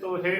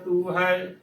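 First: It has an 'o' then an 'e' vowel. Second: It has a 'u' then an 'ai' vowel. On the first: The speaker calls it wrong. "ਤੋਹੇ ਉਚਾਰਨ ਨਹੀਂ ਕਰਨਾ" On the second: The speaker calls it right. "ਤੂੰ ਹੈ ਸਹੀ ਉਚਾਰਨ ਹੈ"

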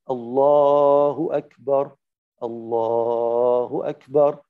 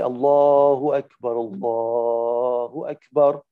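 First: There is a pause after the first phrase. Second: The two phrases run together without a pause. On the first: The speaker calls it right. "I stopped at the end of the sentence" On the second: The speaker calls it wrong. "in the first example where I joined them"

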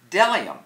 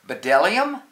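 First: The word begins with a D sound. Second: The word begins with an audible B sound. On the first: The speaker calls it right. "the only word dumb enough to begin with a silent B" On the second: The speaker calls it wrong. "B is for bdellium? No"

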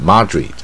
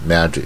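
First: The first vowel is not the 'cat' vowel. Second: The first vowel is the open 'cat' vowel. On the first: The speaker calls it wrong. "不要念Madrid" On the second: The speaker calls it right. "英文呢它是大卷舌Madrid"

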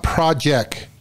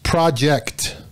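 First: The final t sound is dropped. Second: The final t sound is clearly pronounced. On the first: The speaker calls it wrong. "it's not project" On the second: The speaker calls it right. "It's project"

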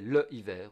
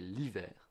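First: The vowel of le is pronounced separately. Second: The vowel of le is dropped. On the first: The speaker calls it wrong. "We don't say le hiver" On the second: The speaker calls it right. "we say l'hiver"

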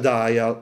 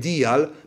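First: The word is said with English pronunciation. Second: The word is read as spelled, Italian-style. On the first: "ma si pronuncia dial" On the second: "si scrive dial"

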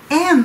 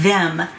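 First: The th sound is dropped, leaving only 'm. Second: The th sound at the start is clearly pronounced. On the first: "消えるなり前の、単語とくっついたりしてm m っていう風に発音されます" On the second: "普通に発音するとthem"

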